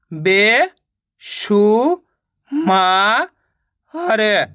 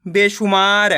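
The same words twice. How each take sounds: First: "बे, शु, मा, र" one by one with pauses; teacher's broken-up "बे, शु, मा, र"; sounding out syllables. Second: Said in the usual way. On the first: Shown as a demonstration. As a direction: stretch "बे", "शु", "मा" upward, then drop on "र". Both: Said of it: "तो मिलके बन जाएगा".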